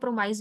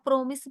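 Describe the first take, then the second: First: The second syllable sounds like 'mice'. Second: The second syllable sounds like 'miss'. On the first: "प्रोमाइस भी बोल सकते हैं" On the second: "प्रोमिस भी बोल सकते हैं"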